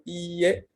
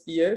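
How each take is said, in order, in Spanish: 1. La primera vocal es larga. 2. La primera vocal es corta. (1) "sino IE con una I larga" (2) "La negación no es IE"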